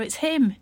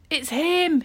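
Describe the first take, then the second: First: Hammed-up spooky fright, a touch higher; mock terror. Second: Higher, louder cry of terror; frightened shout. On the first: Salim teasing friends about the mummy, mock terror. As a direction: tease the others with pretend fear. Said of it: "in mock terror". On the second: Acted. Salim sees the light in the tomb, terrified shout. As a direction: yell it, eyes wide with terror. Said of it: "he shouted".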